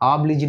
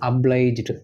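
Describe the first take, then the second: First: The first syllable is drawn out long. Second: The first syllable is short and pressed. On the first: The speaker calls it wrong. "obliged அப்படின்னு சொல்லுவாங்க, அப்படி கிடையாது" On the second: The speaker calls it right. "ஆப் இழுக்க வேண்டாம், அழுத்தி சொல்லுங்க"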